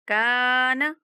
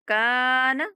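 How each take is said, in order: No difference in how they are said.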